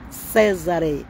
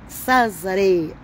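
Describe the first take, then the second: No difference in how they are said.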